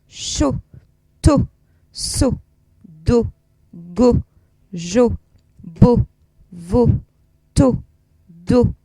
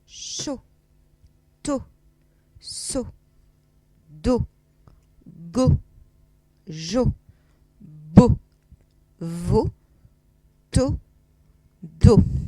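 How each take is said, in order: First: The syllables are read at the fastest pace. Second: The syllables are read slowly and calmly. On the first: "Un tout petit peu plus vite encore" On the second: "on y va tout d'abord tranquille"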